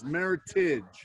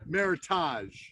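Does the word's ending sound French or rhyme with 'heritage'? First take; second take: heritage; French. First: The ending rhymes with the word heritage. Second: The ending is said in a French style. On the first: The speaker calls it right. "the right pronouncing pronunciation of this is Meritage because it's a marriage of heritage grapes" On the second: The speaker calls it wrong. "you pronounced it uh"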